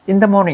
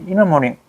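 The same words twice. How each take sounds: First: The word 'the' is said clearly and separately. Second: The word 'the' is blended into 'in'. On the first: The speaker calls it wrong. "이러면 잘 못 알아들어" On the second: The speaker calls it right. "그냥 in the morning 이렇게 해야지 알아듣는다고"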